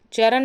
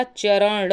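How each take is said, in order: First: चरण ending in plain n, "charan"; quick n at the end of चरण; wrong form. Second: चरण slowly, with retroflex flap ending; drawn-out "charaṇḍa" for चरण; correct form. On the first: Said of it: "चरण नहीं होता". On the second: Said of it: "चरण होता है". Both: Shown as a demonstration.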